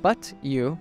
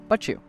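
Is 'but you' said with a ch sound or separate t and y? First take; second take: separate sounds; ch sound. First: The t and y stay as separate sounds. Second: The t and y merge into a ch sound.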